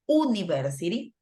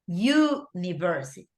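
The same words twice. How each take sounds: First: The word begins with a plain vowel sound. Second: The word begins with a 'y' sound. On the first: The speaker calls it wrong. "we don't pronounce it university" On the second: The speaker calls it right. "with a Y like this"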